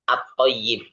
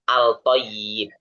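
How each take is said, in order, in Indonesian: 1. Bunyi l melebur ke dalam huruf t yang ganda. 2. Bunyi l terdengar jelas sebelum t. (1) "Langsung dimasukkan ke huruf yang berikutnya" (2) "Jadi bukan al-toyib"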